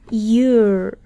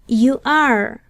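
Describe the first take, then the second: First: The words are joined into one short syllable. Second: Both words are said fully as two syllables. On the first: "De forma contraída" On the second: "de forma no contraída"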